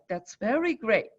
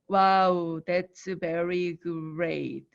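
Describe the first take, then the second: First: It is said with lively feeling. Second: It is said flat, like a robot.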